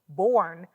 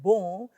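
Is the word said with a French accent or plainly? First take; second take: plain; French. First: It is said plainly, without a French accent. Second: It is said with a French accent.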